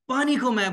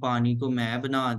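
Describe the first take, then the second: First: The voice rises and falls with variety. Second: The voice stays on one flat tune. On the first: The speaker calls it right. "अगर यही जुमला मैं ये ऐसे कहूं" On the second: The speaker calls it wrong. "वो एक ही tune में सुना देते हैं"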